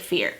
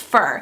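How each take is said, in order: First: The word sounds like 'fear'. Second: The word sounds like 'fur'. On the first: The speaker calls it wrong. "It doesn't sound right if I say fear" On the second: The speaker calls it right. "It's fir"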